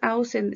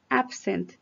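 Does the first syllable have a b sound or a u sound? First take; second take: u sound; b sound. First: The first syllable has a u sound, no b. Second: The first syllable has a clear b sound. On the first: The speaker calls it wrong. "no es ausent" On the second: The speaker calls it right. "es absent, con B"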